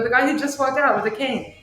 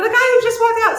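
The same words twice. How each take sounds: First: Higher-pitched retold insistence; insistent. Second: Loud, very high-pitched retold insistence; exasperated cry. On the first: Shop owner explains to husband who she means, insistent. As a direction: replay pointing out the obvious, pitched up. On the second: Shop owner repeats herself to doubting husband, exasperated cry. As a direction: cry it out in imitated disbelief, voice shooting up.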